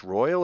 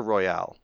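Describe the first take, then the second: First: "Royal" with stress on the first syllable, ROY-al; English pronunciation. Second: "Royale" with stress on the last syllable, roy-AL; French-style pronunciation. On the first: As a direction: say "Royal" as the everyday English word. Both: Shown as a demonstration. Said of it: "is it pronounced Royal or Royale".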